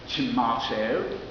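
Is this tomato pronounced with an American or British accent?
British. It is said with an imitated British pronunciation. This is someone else's way of saying it. "it's certainly not mine from Louisville, Kentucky"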